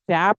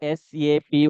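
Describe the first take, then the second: First: It is said as a single word, sap. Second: It is spelled out as three letters. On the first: The speaker calls it wrong. "శాప్ అని అనకూడదు" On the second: The speaker calls it right. "We need to pronounce it as ఎస్ఏపి only"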